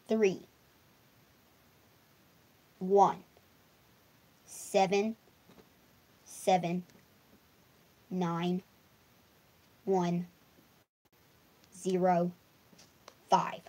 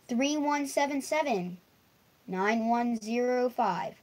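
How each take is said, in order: First: The digits are said slowly. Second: The digits are said at normal speed.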